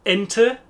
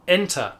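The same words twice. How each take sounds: First: "Ente" with a short final "uh", rising; short e ending. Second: "Enter" falling onto an open "ah", no R; open -er ending. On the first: Teacher repeating the word contrast, short final e. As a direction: lift "Ente" and end on a light e. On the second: Teacher repeating the word contrast, open -er ending. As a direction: drop the R and open the end of "Enter". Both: Shown as a demonstration. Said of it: "to distinguish between".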